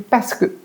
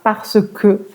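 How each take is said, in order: First: The phrase is squeezed into a shortened form. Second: Every syllable of the phrase is pronounced fully. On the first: "c'est parce que quand on parle vite" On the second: "c'est pas parce que"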